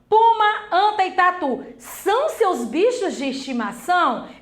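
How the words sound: It is said as a questioning sentence. The speaker is asking whether it is true. The speaker calls it right. "Eu estou perguntando"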